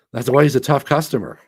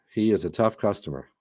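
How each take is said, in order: First: Loud, punchy praise; emphatic. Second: Said in the usual way. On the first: Real, not acted. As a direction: hit it hard and loud.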